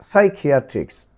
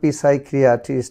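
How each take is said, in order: First: The word begins with an s sound. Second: The word begins with a sounded p. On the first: The speaker calls it right. "পিসাই নয় সাই" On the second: The speaker calls it wrong. "পিসাইকিয়াট্রিস্ট হয়নি"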